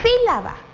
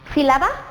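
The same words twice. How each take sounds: First: The stress falls on the first syllable. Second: The stress falls on a later syllable. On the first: The speaker calls it right. "se acentúa en la I porque es una esdrújula" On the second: The speaker calls it wrong. "¿Será que es correcto? No"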